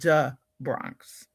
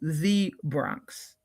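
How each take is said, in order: First: The word 'the' begins with a 'd' sound. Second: The word 'the' begins with a 'th' sound. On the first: "It's "duh Bronx."" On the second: "as opposed to the Bronx"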